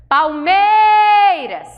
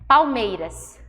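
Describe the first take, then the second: First: Higher, louder, very slow yell of Palmeiras; shouted from the hill. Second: Said in the usual way. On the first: Shown as a demonstration. Teacher showing the stressed syllable, long yell. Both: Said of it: "Subiu lá e grita".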